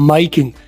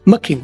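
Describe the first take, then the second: First: 'My' is said with a full 'eye' diphthong. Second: 'My' is reduced to a short 'ma' sound. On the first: This is the least common form. "और सबसे कम माई king" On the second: This is the most common everyday form. "सबसे ज्यादा मा king, ... और वो भी short मा king"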